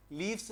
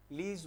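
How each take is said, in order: First: लीव्स said with an FS ending, as leafs; wrong plural with F. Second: लीव्स said with a voiced VZ ending; plural with V. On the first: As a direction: keep the F sound in लीव्स, like "leefs". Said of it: "लीव्स नहीं बोलोगे". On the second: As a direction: turn the F into a V in लीव्स, like "leevz". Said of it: "लीव्स बोलोगे". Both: Shown as a demonstration.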